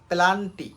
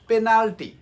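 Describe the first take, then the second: First: The L sound comes before the N sound. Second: The N sound comes before the L sound. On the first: The speaker calls it wrong. "আমরা উচ্চারণ করি কি পেলা পেলান্টি" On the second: The speaker calls it right. "শব্দটা হবে পেনাল্টি"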